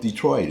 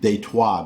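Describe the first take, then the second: First: The name is said with an American pronunciation. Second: The name is said with a French pronunciation. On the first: The speaker calls it right. "we call it Detroit" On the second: The speaker calls it wrong. "that's how a Frenchman would pronounce Detroit"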